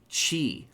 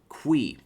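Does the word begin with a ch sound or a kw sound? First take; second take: ch sound; kw sound. First: The word begins with a ch sound. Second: The word begins with a kw sound. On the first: The speaker calls it right. "but no, it's Qi" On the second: The speaker calls it wrong. "my idiot American brain wants to read that as like Qi or Qui"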